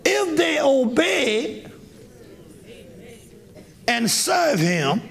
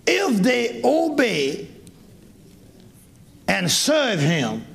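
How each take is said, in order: First: Shouted verse. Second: Slow, deliberate reading of the verse. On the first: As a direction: proclaim the verse to the hall. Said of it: "Listen to this, listen". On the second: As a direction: lay out each word slowly. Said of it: "Listen to, listen to this voice". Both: Shown as a demonstration.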